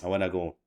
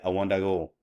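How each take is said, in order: First: Want and to blend into one word. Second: The same.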